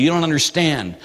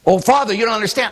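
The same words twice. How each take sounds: First: Said in the usual way. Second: Higher, fast, mocking whine; mock whiny complaint. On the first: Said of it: "they'll say, "Father, I come from". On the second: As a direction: parody the excuse in a higher, quicker whine.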